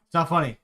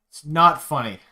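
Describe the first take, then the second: First: Said in the usual way. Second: Louder repeat, punching not; louder insistence. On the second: Real, not acted. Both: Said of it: "It's not funny anymore".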